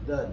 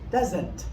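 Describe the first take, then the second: First: The word is clipped short into one syllable. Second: The word is drawn out into three syllables. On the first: The speaker calls it right. "It's just kind of one. You just kind of stop" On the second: The speaker calls it wrong. "That's doesn't. That's three syllables"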